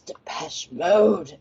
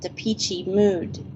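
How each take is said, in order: First: The name is said like 'de-pesh mode'. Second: The name is said like 'de-peachy mood'. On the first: This is the band's real pronunciation. The speaker calls it right. "it's Depeche Mode" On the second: This is how the locals mispronounced the band's name. The speaker calls it wrong. "they all called it Depeachy Mood"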